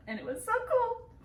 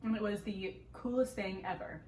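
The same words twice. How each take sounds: First: High, bright burst of excitement; excited. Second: Said in the usual way. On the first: Real, not acted. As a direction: gush about how cool it was. Describes seeing eagle ray.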